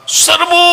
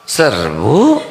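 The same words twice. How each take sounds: First: It is shouted with strong, spirited energy. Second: It is said weakly with no energy. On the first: The troops are fired up to attack. The speaker calls it right. "semangat tidak?" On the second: The troops lose their fighting spirit. The speaker calls it wrong. "Ganti nadanya, kata-katanya sama ... Jadi leto ini"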